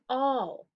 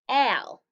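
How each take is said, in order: First: The vowel is the 'aw' sound, as in 'ball'. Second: The vowel is short, as in 'cat'. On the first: "but this word's all" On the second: "normally A says a"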